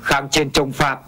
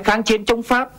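First: Every word is said with a low falling tone. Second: Each word carries its normal standard tone. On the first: The speaker calls it wrong. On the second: The speaker calls it right.

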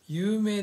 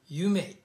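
First: It is said as the Japanese word yuumei. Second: It sounds like the English words you may. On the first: The speaker calls it right. "有名です。" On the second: The speaker calls it wrong. "if I read alphabet in your comment, you may"

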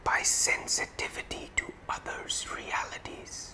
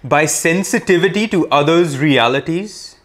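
First: The words are whispered. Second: The words are spoken loudly. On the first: "And now whispering" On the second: "let us say it loudly first"

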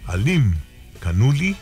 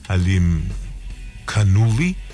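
First: The name is said with momentum and flourish. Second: The name is said plainly and somewhat hesitantly. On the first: The speaker calls it right. "agarra vuelo ... Ya ves qué diferencia ... hasta parece que soy de allá" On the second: The speaker calls it wrong. "no sé si lo pronuncié bien"

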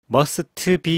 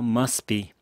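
First: The t at the end of must is pronounced. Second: The t at the end of must is silent. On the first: The speaker calls it wrong. "이러지 마시고요" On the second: The speaker calls it right. "T는 발음하지 않습니다"

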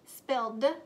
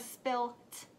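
First: The word ends with a 'd' sound. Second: The word ends with a 't' sound. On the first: The speaker calls it right. "It's spilled with the d sound" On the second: The speaker calls it wrong. "or spilt?"

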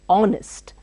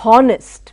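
First: The word begins with a vowel sound. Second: The word begins with an h sound. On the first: The speaker calls it right. "O is pronounced" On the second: The speaker calls it wrong. "Don't say honest"

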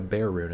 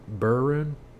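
First: The name has the vowel of 'bear'. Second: The name has the vowel of 'burr'. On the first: "that's what I've always called it" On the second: "Or burr rune?"

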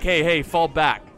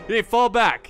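First: It is said in the speaker's ordinary accent. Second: It is said in an imitated French accent.

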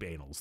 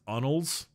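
First: It uses the American pronunciation of the word. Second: It uses the European pronunciation of the word. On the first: "I'm American. We pronounce it as deep annals" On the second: "that's like the European pronunciation"

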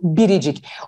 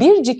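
First: An i vowel is heard between r and c. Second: No vowel is heard between r and c. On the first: The speaker calls it right. "Ne diyorsun? Biricik" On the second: The speaker calls it wrong. "Sen bircik mi diyorsun"

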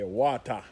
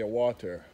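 First: The word is said in a Jamaican accent. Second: The word is said in a non-Jamaican accent. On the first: This is how people in Jamaica say it. "We say water" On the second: This is how people outside Jamaica say it. "In Jamaica, we don't say water"

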